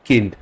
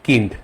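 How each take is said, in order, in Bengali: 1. স্বরধ্বনিটি ছোট 'ee'-র মতো শোনায়, জার্মান ধাঁচে। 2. স্বরধ্বনিটি ছোট 'ee'-র মতো শোনায়, জার্মান ধাঁচে।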